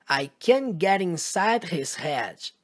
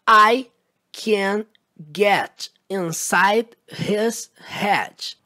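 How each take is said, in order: First: The sentence is spoken faster. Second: The sentence is spoken slowly. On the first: "Agora um pouco mais rápido" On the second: "Primeiro devagar"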